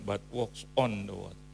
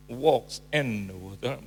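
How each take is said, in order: First: "on" leaned on as the correct word; stress on "on". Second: "in" said slow and loud; slow and weighty on "walks in the water"; emphatic wrong version; stressed wrong preposition. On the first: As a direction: hit "on" clearly in "walks on the water". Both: Shown as a demonstration. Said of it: "terjemahkan in dan on".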